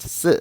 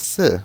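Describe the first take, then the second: First: "si" in the Mandarin tone of the word for dead. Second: "si" with the sharply falling fourth tone of Mandarin four. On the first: Teacher contrasting Chinese tones, "si" as in dead. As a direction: say "si" as Mandarin dead, toned apart from four. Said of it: "the character for dead is pronounced". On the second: Teacher contrasting Chinese tones, "si" as in four, falling tone. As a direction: say "si" as Mandarin four, pitch dropping from high. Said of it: "distinguished in both writing and spoken Chinese is through the tone". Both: Shown as a demonstration.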